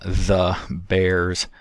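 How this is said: It has a th sound and a final z sound. "normally it would be"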